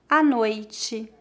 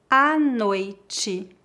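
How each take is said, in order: First: It is spoken at a natural pace. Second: It is spoken slowly and carefully. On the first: "2 vezes mais naturalmente" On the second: "Uma vez mais devagar"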